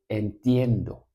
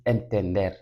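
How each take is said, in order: First: "entiendo" con el diptongo "ie" bien marcado; forma correcta. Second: "entender" dicho como forma errónea del verbo; forma incorrecta. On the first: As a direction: di "entiendo" abriendo el "ie". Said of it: "sino que vas a decir entiendo". ("entiendo", la forma correcta) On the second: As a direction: di "entender" como el error a evitar. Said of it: "No vas a decir entender". ("entender", la forma que no se dice) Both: Shown as a demonstration.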